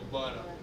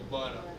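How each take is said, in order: First: The middle t is dropped entirely. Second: The middle t is dropped entirely.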